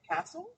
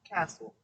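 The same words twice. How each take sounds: First: The pitch rises at the end, like a question. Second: The pitch falls at the end, like a statement. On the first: It sounds like a question. The speaker calls it wrong. "don't say it" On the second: It sounds like a finished statement. The speaker calls it right.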